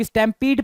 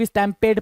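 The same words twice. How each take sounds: First: स्टैम्पीड with a long "ee" in the last syllable; variant pronunciation. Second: स्टैम्पेड with an "ay" vowel in the last syllable; variant pronunciation. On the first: Teacher showing how some people read the word, स्टैम्पीड with an "ee" ending. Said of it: "कुछ लोग स्टैम्पीड पढ़ते हैं". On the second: Teacher showing the other reading of the word, स्टैम्पेड with an "ay" ending. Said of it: "कुछ लोग स्टैम्पेड पढ़ते हैं". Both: Shown as a demonstration.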